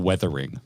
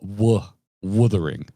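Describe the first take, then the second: First: "weathering" with the eh of "weather"; imitating mispronunciation. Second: Slow "wuthering", first syllable sounded out alone; correcting pronunciation. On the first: Co-host pointing out the slip, imitated "weathering". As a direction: echo the friend's "weathering", first vowel eh not u. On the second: Shown as a demonstration. Co-host coaching a friend, slow deliberate "wuthering". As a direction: break off "Wa-", then give "wuthering" with a short u. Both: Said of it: "You're saying weathering".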